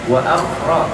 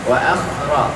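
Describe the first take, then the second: No difference in how they are said.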